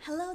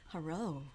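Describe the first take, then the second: First: The voice is pitched high and bright. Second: The voice is pitched low and deep. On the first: The speaker is greeting a customer politely. "most people heighten their voice" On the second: The speaker wants to sound mature and be taken seriously. "when Amy talked in her low voice"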